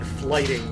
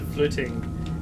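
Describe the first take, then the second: First: The vowel is a long 'eye' sound. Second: The vowel is a short 'i' sound. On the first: This is how an English reader would read the spelling. "It looks like flighting when you write it out uh, if you're an English speaker" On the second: This is how Scandinavians say it today. "the modern Scandinavian pronunciation would be something close to flitting"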